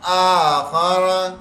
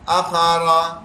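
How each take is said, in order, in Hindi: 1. यह शब्द आराम से बोला गया है, इसका शुरुआती स्वर खींचकर रखा गया है। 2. यह शब्द जल्दी में बोला गया है, इसका शुरुआती स्वर छोटा कर दिया गया है।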